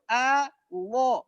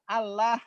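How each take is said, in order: First: The L sound is heavy and thick. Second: The L sound is light and thin. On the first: The name is being glorified. The speaker calls it right. "mengucapkan Allah yang benar itu Allah, lo-nya tebal" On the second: The name is not being glorified. The speaker calls it wrong. "orang lain selain Islam, susah. Allah gitu"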